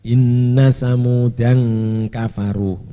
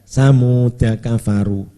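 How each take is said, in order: First: An n sound is added before kafaru. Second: No n sound before kafaru; the vowel is short. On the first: This is the reading with tanwin used by some scholars. "sebagian ulama ada yang membaca tanwin" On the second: This is the reading without tanwin. "dibaca pendek"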